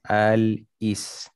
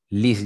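First: It begins with a vowel before the L. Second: It begins directly with the L sound. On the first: This is the original form before the vowel moves. "Asalnya baris bawah tu hamzah punya" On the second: The vowel has moved onto the L. "So jadi alis ataupun lis je lah"

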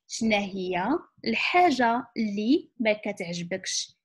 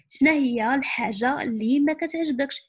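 First: The sentence is spoken at a slower pace. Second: The sentence is spoken at a faster pace.

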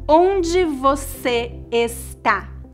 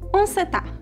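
First: Every word and syllable is said in full. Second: Even more sounds and syllables are dropped. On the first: "um brasileiro raramente vai dizer" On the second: "Ou até mesmo"

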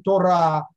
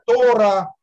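First: The stress is on the last syllable. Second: The stress is on the first syllable. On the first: This is the standard pronunciation. "как положено" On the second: "оно переносит ударение на предпоследний слог"

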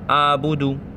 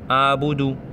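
No difference in how they are said.

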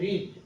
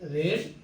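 First: The vowel is long, as in reed. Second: The vowel is short, as in red. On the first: It is the present form of the verb. "Principal verb হচ্ছে রিড" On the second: It is the past participle form of the verb. "উচ্চারণ হবে রেড"

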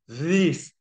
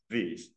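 First: The TH sound is high and thin. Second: The TH sound is low and deep. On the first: The speaker calls it wrong. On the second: The speaker calls it right.

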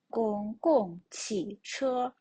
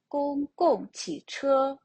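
First: It is said slowly with even syllables. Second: It is said quickly with the last syllable stressed. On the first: "спочатку прочитаємо повільно" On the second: "спробуємо швидше"

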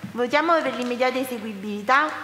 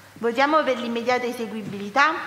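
No difference in how they are said.

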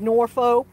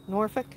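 First: The name is said fully, as it is spelled. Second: The name is said in a reduced local form. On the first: The speaker is an outsider. The speaker calls it wrong. "even though it's spelled that way, they knew that you were a foreigner" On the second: The speaker is a local. The speaker calls it right. "That's how we pronounced them"

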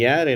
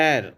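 First: A y glide is added before the vowel. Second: The word starts directly with the vowel. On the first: The speaker calls it wrong. "ஏர் என்பது தவறான உச்சரிப்பு" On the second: The speaker calls it right. "ஏர் அப்படிங்கிறது சரியான உச்சரிப்பு"

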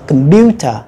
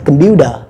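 First: The middle consonant is a clear t sound. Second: The middle consonant is a soft d sound. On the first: "Người Anh sẽ đọc là" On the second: "người Mỹ sẽ đọc là computer. Chuyển âm tờ qua âm đờ"

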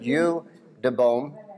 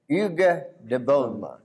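First: The name is said with an English pronunciation. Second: The name is said with a French pronunciation. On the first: The speaker calls it wrong. "In English, we would pronounce it" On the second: The speaker calls it right.

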